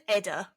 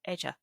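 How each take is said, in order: First: The middle consonant is a plain 'd' sound. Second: The middle consonant sounds like 'dj'. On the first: "we'll pronounce them as written by anglicised English" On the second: "In Gaelic it would be Edja"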